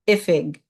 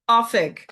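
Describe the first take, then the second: First: It is said the Munster way, starting with 'ih'. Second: It is said the Ulster way, starting with 'oh'.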